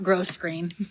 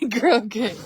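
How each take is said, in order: First: The first syllable ends with an s sound. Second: The first syllable ends without an s sound. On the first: The speaker calls it wrong. "not gross grain" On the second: The speaker calls it right. "I think it's called grow grain"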